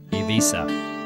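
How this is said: It is said with a Catalan pronunciation. This is how the islanders say it. "Catalan is the most common language of the island, and they say Ibiza"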